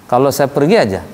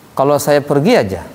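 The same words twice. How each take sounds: The two takes are said the same way.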